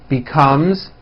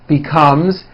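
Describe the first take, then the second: The two takes are said the same way.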